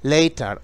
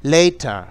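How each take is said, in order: The two takes are said the same way.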